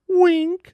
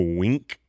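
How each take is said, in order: First: It is said in a higher-pitched voice. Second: It is said in a deep, low voice. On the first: "could I say it with a higher voice?" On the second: "that was really deep"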